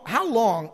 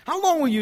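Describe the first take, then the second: First: Said in the usual way. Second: Higher and louder, long held and falling; rising cry. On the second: Retold or imitated. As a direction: call out How long to the men. David calling to the men.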